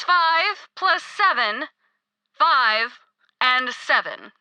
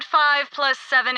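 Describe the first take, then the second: First: Five plus seven drawn out slowly; patient slow-motion repeat of the sum. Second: Said in the usual way. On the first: Acted.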